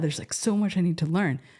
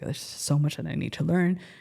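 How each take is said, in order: First: It sounds eager and enthusiastic. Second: It sounds weary and overwhelmed. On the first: The amount left to learn feels exciting. "like an eager or like a sense of like" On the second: The amount left to learn feels like a burden. "I gave it kind of like a negative connotation. Like, I'm just so overwhelmed"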